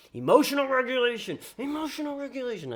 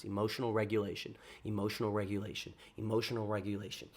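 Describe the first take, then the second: First: Mantra jumping higher, half-mocking; mantra pitched up. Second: Soft repeated mantra under his breath; muttered to himself. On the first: Hyping himself after the rejection, mock high-pitched mantra. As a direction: squeak the last repeats up high. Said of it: "I say that in my mind ten times". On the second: Retold or imitated. Telling himself to calm down after the rejection, quiet muttered mantra. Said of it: "I say that in my mind".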